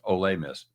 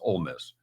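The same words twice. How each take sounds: First: The first word sounds like Spanish olé. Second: The first word sounds like plain English.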